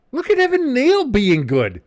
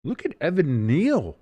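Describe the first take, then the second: First: Loud, very high whoop of amazement; thrilled outburst at a player doing well; excited cheer. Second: Higher, drawn-out admiration at normal volume; pleased, lilting praise; impressed cheer. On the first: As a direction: shout the praise high and loud. Admiring player, louder repeat. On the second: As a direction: marvel slowly at the player, stretching NEAL. Admiring player, first take. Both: Real, not acted.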